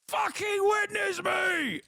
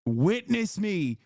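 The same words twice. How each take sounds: First: Much higher, screamed war cry; war cry shout. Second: Said in the usual way. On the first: Pretend. Content warlord screaming to his viewers. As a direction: bellow it like a crazed warlord. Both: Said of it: "I am a goddamn content warlord".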